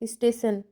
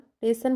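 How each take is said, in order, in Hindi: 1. शब्द पूरा बोला गया है, हर ध्वनि साफ़ है। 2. शब्द छोटा करके बोला गया है, ध्वनियाँ बदल दी गई हैं।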